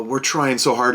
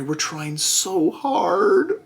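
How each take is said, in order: First: Lightly mocking company excuse; a touch of fake sincerity; company excuse, only lightly mocked; mild mock apology. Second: Higher, very slow, put-on simpering voice; mocking the company's excuse in a put-on voice; sarcastic company voice. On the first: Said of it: "And they're like". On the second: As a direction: drag it out in a fake sweet whine. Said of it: "so now they're like".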